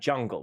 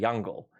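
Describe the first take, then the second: First: The word begins with a j sound. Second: The word begins with a y sound. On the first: "We don't have jungle" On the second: "We have jungle"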